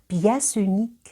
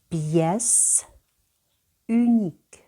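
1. Кінцевий приголосний з'єднується з наступним словом. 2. Два слова вимовляються окремо. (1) "А тепер я прочитаю так, як слід. ... я обидва слова з'єднала" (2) "Спочатку читаємо окремо кожну частину"

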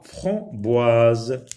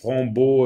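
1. La deuxième voyelle se prononce 'wa'. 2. La deuxième voyelle se prononce 'o'. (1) "O, I se lit, oie" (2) "On va pas dire beau, frambo"

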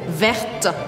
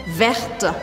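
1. O som do t final é pronunciado. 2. O som do t final é pronunciado.

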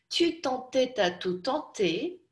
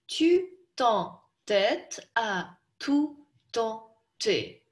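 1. Произносится более длинными кусками, с меньшим количеством пауз. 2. Каждый слог произносится отдельно, с паузами. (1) "Подлиннее" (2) "давайте сначала по слогам прочтем"

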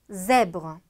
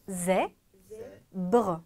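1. 음절이 쉼 없이 이어져요. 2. 음절 사이에 쉼이 있어요.

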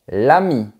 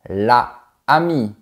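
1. La voyelle de l'article est supprimée devant le nom. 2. La voyelle de l'article est gardée devant le nom. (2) "tu ne dis pas"

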